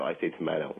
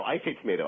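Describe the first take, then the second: First: "tomato" said tuh-MAH-toe; broad-A tomato. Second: "tomato" said tuh-MAY-toe, pitched up; long-A tomato. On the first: Ventriloquist sorting out the lyric, "tomato" as tuh-MAH-toe. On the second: Ventriloquist correcting his dummy's lyric, "tomato" as tuh-MAY-toe. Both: Shown as a demonstration. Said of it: "Oh, no, I say tomato".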